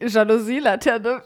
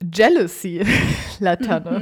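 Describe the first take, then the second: First: The first word sounds like German Jalousie. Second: The first word sounds like English jealousy. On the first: The speaker calls it wrong. "Es ist nicht Jalousie Laterne" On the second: The speaker calls it right. "sondern es ist Jealousy Laterne"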